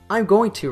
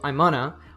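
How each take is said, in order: First: Every syllable of the phrase is said in full. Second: 'Going to' is squeezed into a two-syllable 'gonna'. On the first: "I'm going to reduces to" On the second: "On the first level, it reduces to I'm gonna"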